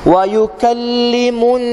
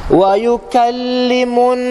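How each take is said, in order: Both takes have the same delivery.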